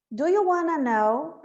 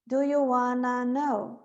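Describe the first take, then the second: First: "Do you wanna know?" with wanna run together; linked wanna. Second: "do you wanna know?" slowly, no T sounds; slow linked wanna. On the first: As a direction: join "wanna" into one smooth word. ("wanna" junto, sem dois T's) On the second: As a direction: stretch it out, wanna as "ana". ("wanna" lento, sem pronunciar os T's) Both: Shown as a demonstration. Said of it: "Eu não vou falar dois T's aqui".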